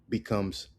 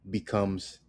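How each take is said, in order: No difference in how they are said.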